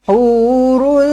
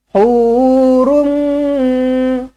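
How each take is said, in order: First: The word ends in an l sound, lips apart. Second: The word ends in a nasal m, lips closed. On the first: "Asalnya memang dia macam ni" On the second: "rapatkan bibir, dengungkan dua harakat"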